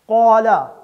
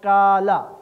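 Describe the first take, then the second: First: It starts with a deep, heavy back 'q' sound. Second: It starts with a light, plain 'k' sound. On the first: The speaker calls it right. "कौफ दो नुक्ते वाला" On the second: The speaker calls it wrong. "कौफ को बारीक पढ़ देना, काफ के साथ पढ़ देना"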